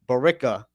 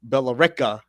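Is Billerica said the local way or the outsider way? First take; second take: local; outsider. First: It is said the way locals say it. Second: It is said the way outsiders say it. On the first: The speaker is from the area. The speaker calls it right. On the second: The speaker is not from the area. The speaker calls it wrong.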